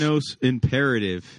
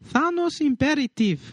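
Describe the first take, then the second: First: It is said in his normal voice. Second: It is said imitating his mom's voice.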